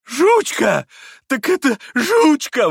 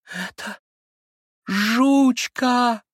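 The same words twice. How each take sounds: First: Very high, loud, stretched cries of bliss; blissful crying out. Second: High, drawn-out cry of suffering and joy; cracked, overwrought voice. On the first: Captain seeing the lost dog, blissful high shouts. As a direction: shout the name in childlike rapture. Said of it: "выкрикивал он блаженным голосом". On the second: Sick boy recognizing his lost dog, high overwrought cry. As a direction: let the voice crack with pained happiness. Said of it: "прокричал он вдруг надтреснутым от страдания и счастья голоском". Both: A narrator's reading.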